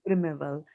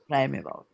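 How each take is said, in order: First: The first syllable does not sound like 'prime'. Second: The first syllable sounds like the word 'prime'. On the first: The speaker calls it wrong. "you don't say primeval" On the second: The speaker calls it right. "That comes from prime"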